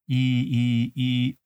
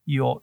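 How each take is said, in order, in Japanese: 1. 二つの母音は、間をあけて別々に言います。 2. 母音は縮まって、一つの速い滑らかな音になります。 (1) "最初、いと言って、い、で、次に、おというと。" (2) "どんどんこう縮めていくわけですね。"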